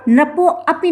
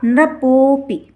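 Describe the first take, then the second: First: नृपो अपी as two words, short po, then "api"; wrongly split. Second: नृपोपी run together with a long held "po"; joined and stressed. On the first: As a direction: break नृपो अपी apart before the a. (नृपो अपी, अलग-अलग तोड़कर) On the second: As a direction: say नृपोपी slowly as "nri-POOO-pi". (नृपोपी, जोड़कर पो को खींचें) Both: Shown as a demonstration. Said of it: "नहीं किया जाएगा".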